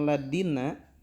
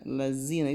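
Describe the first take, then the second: First: The middle consonant sounds like a d. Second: The middle consonant is a strong z. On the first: "Ketika kita mengucapkan ladina, maka enggak sah bacaan Al-Fatihahnya" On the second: "lazina itu terlalu z"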